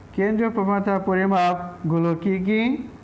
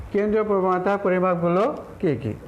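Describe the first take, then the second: No difference in how they are said.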